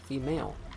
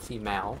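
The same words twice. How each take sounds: First: It is said in the speaker's preferred pronunciation. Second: It is said the way some Americans say it. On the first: The speaker calls it right. "That's not how you pronounce it. Female" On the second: The speaker calls it wrong. "not female"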